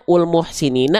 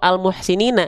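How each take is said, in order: First: The word begins with a u vowel. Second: The word begins with an a vowel. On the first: The speaker calls it wrong. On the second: The speaker calls it right. "pasti fathah"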